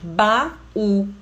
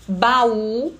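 First: "Baú" split, a pause between Ba and ú; syllable by syllable. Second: Said in the usual way. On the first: Shown as a demonstration. Teacher shows the hiato in "Baú", syllables pulled apart. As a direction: say "Baú" as two separate syllables, Ba... ú. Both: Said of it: "Mesma coisa aqui".

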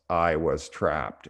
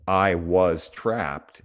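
First: Slow deliberate "I was trapped"; slow quoted belief. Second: Said slowly and deliberately, "I was trapped"; slow quoted belief. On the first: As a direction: present "I was trapped" slowly, as a label. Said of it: "her belief system was". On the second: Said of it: "how we carry our beliefs". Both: Shown as a demonstration.

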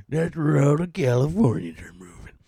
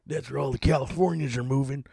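First: Hushed whispered aside; breathy conspiratorial whisper. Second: Said in the usual way. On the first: Shown as a demonstration. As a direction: whisper it like a secret. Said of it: "repeated in a whisper". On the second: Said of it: "whispered repeat".

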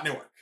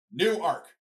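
First: "Newark" squashed into NEW-erk; "Newark" quickly, stress first and ark swallowed; run-together Newark. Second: "Newark" as new-ARK, two clear syllables; stress on second syllable. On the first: Showing fans what to avoid, "Newark" as NOO-erk. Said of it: "not Newark". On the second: Teaching fans the Delaware name, "Newark" as new-ARK. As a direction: land "Newark" on a full ark. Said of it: "two syllables with the stress on the second syllable". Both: Shown as a demonstration.

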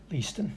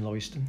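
First: Leiston as LEE-stən; self-corrected pronunciation. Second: Leiston as LOY-stən, dropped lower; slip into mispronunciation. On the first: Host saying sorry for the slip, Leiston as LEE-stən. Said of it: "sorry, uh". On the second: Host signing off with the wrong name, Leiston as LOY-stən. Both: Shown as a demonstration.

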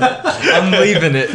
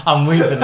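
First: Slow, high, giggling words; laughing while talking. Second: Laughing. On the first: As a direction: say it through laughter. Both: Real, not acted.

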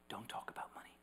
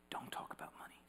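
First: Unvoiced whisper, hushed; whisper, first take. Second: Whispered again, unvoiced; echoing hushed whisper. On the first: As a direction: breathe it like a secret warning. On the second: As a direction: repeat the warning in a hush. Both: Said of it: "was whispered in my ear".

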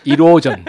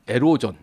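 First: 이로전 said with an i sound, i-ro-jeon, louder; 이로전, first syllable like ee, corrected; corrected pronunciation. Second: 에로전, first syllable like e in "erotic"; wrong pronunciation. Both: Shown as a demonstration. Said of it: "예, 다시 해야겠다".

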